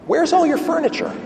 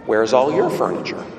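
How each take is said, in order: First: High-pitched, astonished question; puzzled visitor. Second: Low, measured return question, leaning on "your"; stress on YOUR. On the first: Wealthy businessman amazed at rabbi's bare house, puzzled question. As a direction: ask it high, baffled by what you see. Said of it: "Turns to the rabbi and he says". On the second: Old rabbi answering the businessman, low stress on your. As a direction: turn it back calmly, weight on your. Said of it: "Rabbi says to him". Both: Acted.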